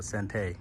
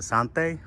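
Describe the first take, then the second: First: Sante with a flat "an", SAN-tay; short "a" as in "cat" in Sante; pronunciation variant. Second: Sante with an open "ahn", SAHN-tay; pronunciation variant. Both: Shown as a demonstration. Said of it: "Is it Sante or Sante?".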